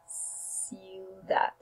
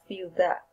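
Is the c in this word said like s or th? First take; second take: s; th. First: The c is said with an s sound. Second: The c is said with a th sound. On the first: This is how it is said in Colombia. "like S" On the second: This is how it is said in Spain. "In Spain, the sound se is pronounced in words with the letters like Z and C"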